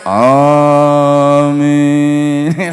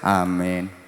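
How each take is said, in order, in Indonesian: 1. Kata itu diucapkan dengan sungguh-sungguh dan sepenuh hati. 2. Kata itu diucapkan dengan asal-asalan dan setengah hati. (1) "Iku lek manute temenan yo amin" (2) "Gak patek manut yo amin"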